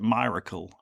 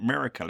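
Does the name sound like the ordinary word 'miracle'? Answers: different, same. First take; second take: different; same. First: It is said unlike the ordinary word miracle. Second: It is said like the ordinary word miracle. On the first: This is how the family says the name. "halfway through the book says you pronounce it Miracle" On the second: This is how a reader guesses the name. "I'd already pronounced it Miracle in my head"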